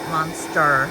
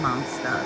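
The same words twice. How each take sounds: First: The word ends with a clear R sound. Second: The word ends in an 'ah' without R. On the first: "I don't say monster with an R at the end of it" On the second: "I say monster"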